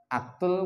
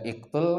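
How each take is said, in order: First: The word begins with an a vowel. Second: The word begins with an i vowel. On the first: "Dibaca aktul kah?" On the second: "Dibaca iktul kah?"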